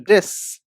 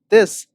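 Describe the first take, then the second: First: The first consonant is pronounced the Irish way. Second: The first consonant is pronounced the standard way.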